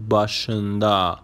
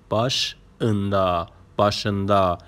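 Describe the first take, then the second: First: Said in the usual way. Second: "başında" in two parts, baş... ında; split for learners. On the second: Shown as a demonstration. Teacher showing learners a new word, "başında" split after baş.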